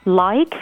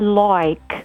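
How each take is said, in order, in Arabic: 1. يُنطق حرف العلة بشكل عادي وقصير. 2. يُمَدّ حرف العلة قليلاً لفترة أطول. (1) "عندكم الساوند I" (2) "الأستراليين بيزودوا شوية تبقى like"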